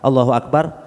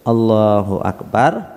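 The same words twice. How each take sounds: First: The phrase is rushed out too quickly. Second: The phrase is said at a measured, moderate pace. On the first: The speaker calls it wrong. "Kecepatan juga kurang bagus" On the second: The speaker calls it right.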